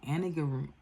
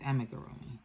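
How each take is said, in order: First: The second consonant is an n sound. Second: The second consonant is an m sound. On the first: The speaker calls it wrong. "that doesn't sound right" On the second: The speaker calls it right. "It's amigurumi"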